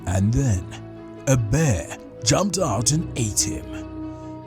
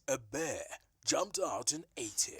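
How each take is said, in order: First: The voice sounds deep, with strong low end. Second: The voice sounds tinny, with no low end.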